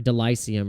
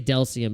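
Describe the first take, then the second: First: The name is said with a middle vowel. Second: The name is said without a middle vowel. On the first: The speaker calls it right. "but it's Delicium" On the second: The speaker calls it wrong. "I always say Delcium"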